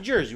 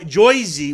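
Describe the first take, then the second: First: The local accent is mild and natural. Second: The local accent is strongly exaggerated. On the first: The speaker calls it right. "we say Jersey" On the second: The speaker calls it wrong. "would be more over exaggerated"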